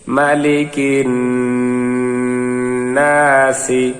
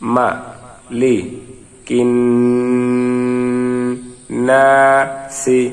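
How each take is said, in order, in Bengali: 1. শব্দাংশগুলো একসাথে, মসৃণভাবে জুড়ে বলা হয়। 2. প্রতিটি শব্দাংশ আলাদাভাবে, থেমে থেমে বলা হয়। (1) "মিলিয়ে পড়ি আসুন।" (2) "আসুন ভাঙ্গা ভাঙ্গা উচ্চারণ করি।"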